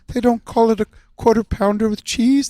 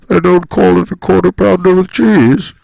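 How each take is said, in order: First: It imitates a gentle cartoon bear character. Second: It imitates a masked movie villain character. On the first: "You will be Jules as Winnie the Pooh" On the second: "We're gonna do the scene as Kermit the Frog and Bane"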